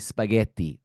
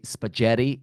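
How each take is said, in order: First: The word is said with an Italian accent. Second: The word is said with an English accent. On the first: The speaker calls it right. "you say spaghetti" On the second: The speaker calls it wrong. "you don't say spaghetti"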